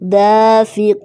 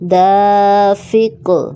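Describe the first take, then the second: First: The final 'q' is followed by a vowel ending. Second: The final 'q' is stopped with an echoing bounce.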